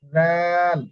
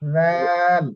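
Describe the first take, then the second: Both takes have the same delivery.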